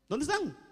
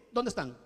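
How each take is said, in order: First: "¿Dónde están?" asked again, pitched higher; higher insistent repeat. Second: Said in the usual way. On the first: Acted. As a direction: press the "¿Dónde están?" question harder.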